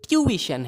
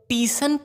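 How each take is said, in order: First: The first syllable sounds like 'tyoo'. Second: The first syllable sounds like 'tee'. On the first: The speaker calls it right. "ये ट्यूशन है" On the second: The speaker calls it wrong. "बिल्कुल ही गलत है"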